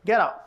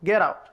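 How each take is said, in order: The two takes are said the same way.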